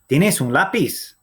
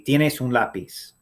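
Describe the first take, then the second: First: The voice rises at the end. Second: The voice falls at the end. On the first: It asks whether someone has a pencil. "You just lift your voice up at the end" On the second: It states that someone has a pencil. "the statement would be"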